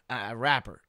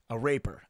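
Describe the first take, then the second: First: Rapper said with a short A, RAP-per; corrected rapper. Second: Raper said as RAY-per, no second p sound; mispronounced raper. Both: Shown as a demonstration.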